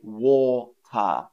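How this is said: It is said with a British accent. "Whereas I say water"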